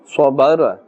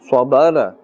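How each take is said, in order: Both takes have the same delivery.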